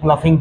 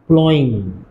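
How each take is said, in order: First: It is said with an 'f' sound. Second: It is said with an 'ow' sound. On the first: The speaker calls it wrong. "किसी ने प्लफिंग पढ़ा" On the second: The speaker calls it right. "इसका तलफ्फुज ये है प्लॉइंग"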